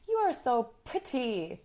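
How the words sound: The T in pretty is a crisp T. The speaker calls it wrong. "we can't say the T's like a British English speaker. We can't say"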